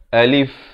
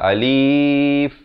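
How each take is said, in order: First: The word is two short, unstretched syllables. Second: The word is stretched out long. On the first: The speaker calls it right. "A dengan lif dua suku kata, jangan panjang" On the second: The speaker calls it wrong. "jangan panjang"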